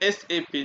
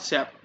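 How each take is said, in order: First: It is spoken as three separate letters. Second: It is spoken as a single word. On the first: The speaker calls it right. "Correct pronunciation" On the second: The speaker calls it wrong. "Not"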